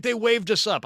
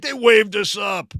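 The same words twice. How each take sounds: First: First claim, a little higher and light; casual insistence. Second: Same claim pushed louder and firmer; louder insistence. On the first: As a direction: brush off the worry casually. Buddy insists they were waved on. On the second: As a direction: repeat it, annoyed you must say it again. Buddy repeats the claim, insisting. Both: Retold or imitated.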